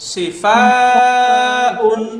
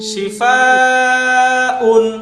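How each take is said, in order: Both takes have the same delivery.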